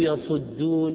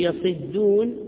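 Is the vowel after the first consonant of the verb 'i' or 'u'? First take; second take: u; i. First: The vowel after the first consonant is 'u'. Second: The vowel after the first consonant is 'i'. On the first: People turn away from it. "لكن عنه يصدون يعرضون" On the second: People laugh, shout and marvel at it. "منه يصدون يضحكون يصرخون يعجبون"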